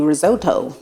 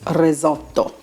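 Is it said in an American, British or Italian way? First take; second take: American; Italian. First: It is said in an American way. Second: It is said in an Italian way.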